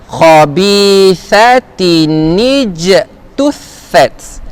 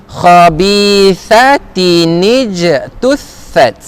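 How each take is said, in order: Both takes have the same delivery.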